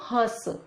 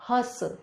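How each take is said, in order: Both takes have the same delivery.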